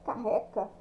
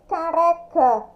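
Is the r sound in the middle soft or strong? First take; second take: strong; soft. First: The middle r is a strong rough sound. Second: The middle r is a soft tap. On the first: The speaker calls it wrong. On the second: The speaker calls it right.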